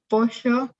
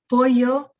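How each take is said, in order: First: The double L is said with a sh sound. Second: The double L is said with an L-like sound. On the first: "maybe pollo" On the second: "They might not say pollo"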